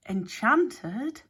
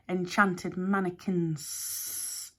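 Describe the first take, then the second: First: "Enchanted?" louder with a sharp rising question; startled echo of "Enchanted?" pushed up at the end; stammered. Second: "enchanted" drawn out slowly and falling; snake Hex, matter-of-fact. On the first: Alex echoing Hex in shock, rising "Enchanted?". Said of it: "stammered Alex". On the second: Snake Hex explaining the mannequins, slow falling "enchanted". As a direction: let "enchanted mannequins" sink slowly downward. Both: A narrator's reading.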